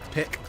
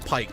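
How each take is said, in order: First: The vowel is a short i, like 'pick'. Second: The vowel is a long i, like 'pike'. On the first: The speaker calls it right. "when it's P I K, pick" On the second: The speaker calls it wrong. "calling him Pike when it's P I K"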